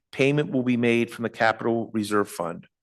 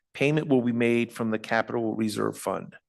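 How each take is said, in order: Both takes have the same delivery.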